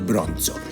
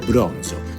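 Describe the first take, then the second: First: The word is said harshly and abruptly. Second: The word is said smoothly and softly. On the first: The speaker calls it wrong. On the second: The speaker calls it right. "the Italian has to be pronounced very smoothly"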